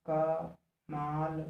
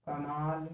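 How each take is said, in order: First: कमाल drawn out very slowly, the long माल held; stress demo. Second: Said in the usual way. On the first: Shown as a demonstration. Teacher showing students the stress in कमाल, slowly drawn out. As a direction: stretch out कमाल slowly to show where the weight falls. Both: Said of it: "कमाल के स्थान पर हम देख लेते हैं".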